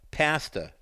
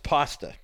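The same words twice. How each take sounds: First: Pasta is said the way the English say it. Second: Pasta is said the speaker's usual, non-English way.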